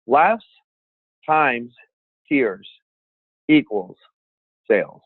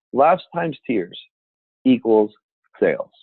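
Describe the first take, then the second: First: "Laughs" ... "times" ... "tears" ... "equals" ... "sales", a long pause after each word; formula word by word. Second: "Laughs times tears" run together slowly, stress on "Laughs", then "equals" ... "sales" falling; slow, weighted recap with "Laughs" punched; slow formula repeat. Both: Shown as a demonstration. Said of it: "here's the formula for speaking".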